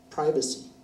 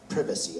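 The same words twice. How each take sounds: First: It is said in an American accent. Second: It is said in a British accent.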